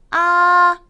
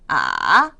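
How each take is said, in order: First: The pitch stays high and level. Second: The pitch dips very low, then rises slightly. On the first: "일성" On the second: "삼성 볼까요?"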